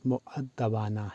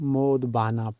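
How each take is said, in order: First: The word begins 'mu' with a doubled 'dd'. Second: The word begins with a plain 'mo' sound. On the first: The speaker calls it right. "सही तलफ़्फ़ुज़ मुअद्दबाना है" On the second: The speaker calls it wrong. "आम लोग मोदबाना पढ़ते या बोलते हैं, जो दुरुस्त नहीं"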